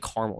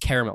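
First: The word is said with two syllables. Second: The word is said with three syllables. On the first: The speaker calls it wrong. "Don't say caramel" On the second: The speaker calls it right. "It's caramel. There's another A there"

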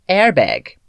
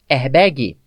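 First: It is said with an English pronunciation. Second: It is said with a Brazilian Portuguese pronunciation. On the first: This is how it is said in English. "E como é?" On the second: This is how it is commonly said in Brazil. "Como falamos?"

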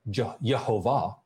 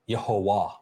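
First: The middle consonant is a V sound. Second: The middle consonant is a W sound. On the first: The speaker calls it wrong. "the original pronunciation is not Yehovah" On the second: The speaker calls it right. "but Yehovah, that it is the wow"

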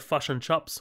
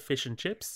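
First: It is said in a New Zealand accent. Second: It is said in the speaker's own accent.

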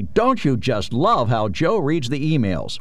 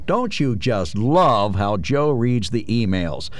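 First: It is read in a lively, excited voice. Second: It is read in a mocking, ironic voice. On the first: "Or I could read it excitedly" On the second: "Or I could read it with a bit of irony, which I think is what is intended"

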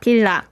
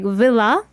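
First: The word begins with a Korean B sound. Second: The word begins with an English V sound. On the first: The speaker calls it right. "in Korean, it's said like villa" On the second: The speaker calls it wrong. "you pronounce it villa like villa, almost similar to villa"

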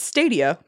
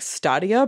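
First: It is pronounced in a plain English way. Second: It is pronounced in a fancy, Russian-sounding way. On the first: The speaker calls it right. "but it's Stadia because stadiums" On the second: The speaker calls it wrong. "I initially thought it would be like Stadia because it sounds very fancy in Russian"

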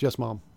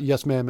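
First: Ma'am is said with a British vowel, like mum. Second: Ma'am is said with an American vowel. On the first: "in England, like, ma'am, that's how they pronounce it" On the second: "it's not yes, ma'am"

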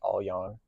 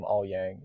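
First: The name is said with a native-sounding pronunciation. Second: The name is said with an Americanized pronunciation. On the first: The speaker calls it right. "It should be Aoyang" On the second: The speaker calls it wrong. "That's my American brain pronouncing it, you know, Americanized"

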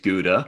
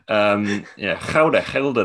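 First: It is said with an American pronunciation. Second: It is said with a Dutch pronunciation. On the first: The speaker calls it wrong. "everyone in America is like, oh my God, I love that Dutch cheese" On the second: The speaker calls it right. "It's actually pronounced Gouda. Gouda, they say that like that"

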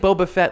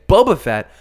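First: The stress falls on the word Fett. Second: The stress falls on the word Boba. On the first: "like we always say with the emphasis on the Fett" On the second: "kind of a weird intonation"

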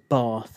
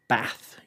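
First: The vowel is a long southern 'ah' sound. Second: The vowel is a short northern 'a' sound. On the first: The speaker is from the south. "Maid Marian says Bath" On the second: The speaker is from the north.

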